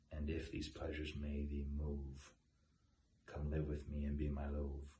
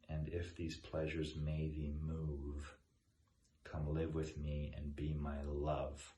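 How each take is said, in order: First: Move and love are said to rhyme. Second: Move and love are said with different vowels.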